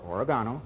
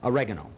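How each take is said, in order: First: It is said with an English pronunciation. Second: It is said with an American pronunciation.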